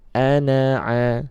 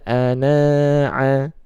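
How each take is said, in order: First: The vowel after the n is short. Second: The vowel after the n is held long. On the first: The speaker calls it right. "nunnya dibaca pendek" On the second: The speaker calls it wrong.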